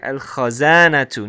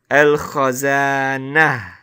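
First: The word ends with a t sound and u. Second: The word ends in a, without a t sound. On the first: "we have a dhamma... we're going to pronounce it as al-khazanatu" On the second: "without a short vowel... it sounds like a ha"

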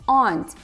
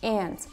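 First: The vowel is a long open 'ah' sound. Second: The vowel is a flat 'a' as in ant. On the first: This is how British or Nigerian speakers say it. "у них это слово звучит как а" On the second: This is how an American speaker says it. "А у американца это похоже больше на aunt"

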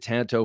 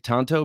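First: Tanto is said with an anglicized pronunciation. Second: Tanto is said with a Japanese-style pronunciation. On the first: The speaker calls it wrong. "I've pronounced it tanto for over 20 years" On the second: The speaker calls it right. "that's how the Japanese pronounce it"

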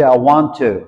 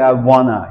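First: The words are said fully as 'want to'. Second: The words are reduced and run together as 'wanna'. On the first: The speaker calls it right. "You say I want to. ... That's British accent" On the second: The speaker calls it wrong. "you shouldn't say I wanna"

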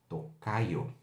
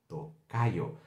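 No difference in how they are said.

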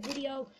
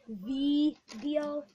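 First: The word is said in the speaker's usual accent. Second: The word is said in a Jamaican-like accent. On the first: The speaker calls it right. "when I mean to say video" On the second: The speaker calls it wrong. "Like I'm Jamaican, or whatever accent that is"

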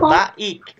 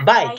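First: It is said as two separate syllables. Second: It is said as one single syllable. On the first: The speaker calls it wrong. "Kalau baik berarti dua suku katanya" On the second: The speaker calls it right. "dibacanya satu kesatuan, nggak ada titiknya"

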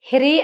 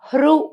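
First: It is said as two syllables, hi-ri. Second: It is said as one syllable with vocalic r. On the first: The speaker calls it wrong. "హిరి అనకూడదండి" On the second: The speaker calls it right. "హృ అనాలి"

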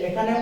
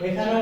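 Both takes have the same delivery.

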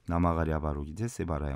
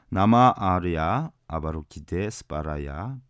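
First: It is pronounced with Korean-adapted sounds. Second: It is pronounced with the original Sanskrit sounds. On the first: "한국식 발음으로" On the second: "원어로 보면"

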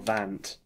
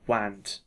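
First: The word begins with a V sound. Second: The word begins with a W sound.

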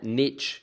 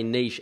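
First: The word ends with a 'tch' sound. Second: The word ends with a soft 'sh' sound. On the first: The speaker calls it wrong. "and not niche ... There is no T in the word niche" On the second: The speaker calls it right. "you also say niche"

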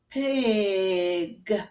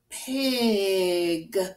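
Both takes have the same delivery.

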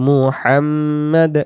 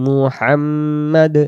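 Both takes have the same delivery.

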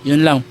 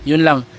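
No difference in how they are said.

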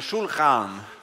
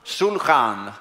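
Both takes have the same delivery.

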